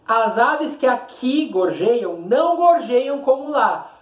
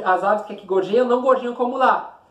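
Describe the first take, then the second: First: Slow, lifted stress on que and gorjeiam; emphatic slow reading. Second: Said in the usual way. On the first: Shown as a demonstration. Teacher slowly stressing the line for students. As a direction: lean on gorjeiam to show the exaggeration. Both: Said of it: "Observe aqui o exagero".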